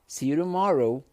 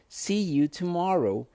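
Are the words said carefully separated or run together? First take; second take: run together; carefully separated. First: The words are run together quickly and reduced. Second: Each word is said separately and carefully. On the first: "do jeito mais fluente" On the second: "Então eu junto tudo"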